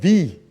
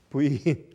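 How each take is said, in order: First: The letter is said the English way. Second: The letter is said the Korean way. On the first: "영어 발음은" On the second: "순수한 한국말 저 발음으로"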